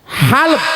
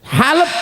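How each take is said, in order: Both takes have the same delivery.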